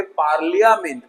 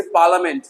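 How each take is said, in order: First: पार्लियामेंट with "li-ya" fully sounded; every vowel voiced in पार्लियामेंट; wrong full spelling pronunciation. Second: पार्लियामेंट said as "PAR-luh-ment"; पार्लियामेंट in three syllables, no "lia"; silent-i pronunciation. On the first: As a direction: say पार्लियामेंट as "par-li-ya-ment". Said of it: "लिया नहीं है". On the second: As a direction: drop the "ya" in पार्लियामेंट. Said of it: "ना कि पार्लियामेंट". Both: Shown as a demonstration.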